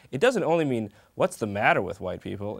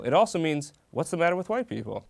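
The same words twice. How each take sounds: First: "what's the matter with white people" as a straight question, stress on matter; plain question "what's the matter with white people", even stress. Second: "what's the matter with white people" with the stress on white people. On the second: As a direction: punch "white people" as an exasperated remark. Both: Shown as a demonstration. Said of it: "You got the inflection".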